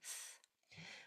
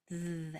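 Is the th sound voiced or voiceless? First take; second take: voiceless; voiced. First: The sound is voiceless, just blown air. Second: The sound is voiced, with buzzing vocal cords. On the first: "a blowing sound like th" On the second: "your vocal cords are used and your tongue vibrates between your teeth"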